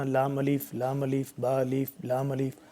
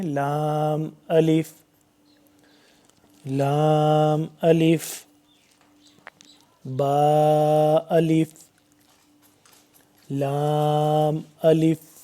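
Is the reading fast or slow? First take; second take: fast; slow. First: It is read quickly without pauses between letters. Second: It is read slowly with pauses between letters. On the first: The speaker calls it wrong. "ऐसे नहीं पढ़ना" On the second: The speaker calls it right. "ठहर ठहर के आराम से तजवीद के साथ पढ़ेंगे"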